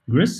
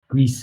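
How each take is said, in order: First: The name is said with a harsh sound. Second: The name is said with a softer sound. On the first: The speaker calls it wrong. "I'm never sure if I say that correctly. Like uh, Gris sounds like such a harsh word" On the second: The speaker calls it right. "that sounds a bit better"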